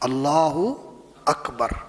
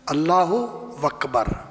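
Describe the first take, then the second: First: No 'w' sound joins the two words. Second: A 'w' sound joins the two words. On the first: The speaker calls it right. "अकबर" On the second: The speaker calls it wrong. "हम वकबर कहते हैं, अकबर नहीं कहते, गलत है।"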